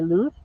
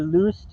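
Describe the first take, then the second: First: It is said with a Spain Spanish accent. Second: It is said with a Latin American accent.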